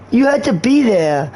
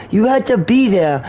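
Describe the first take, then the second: No difference in how they are said.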